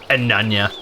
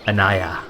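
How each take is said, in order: First: An extra n sound comes before the last syllable. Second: No extra n sound comes before the last syllable. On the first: The speaker calls it wrong. "not Ananya" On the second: The speaker calls it right. "I did get the pronunciation correct this time"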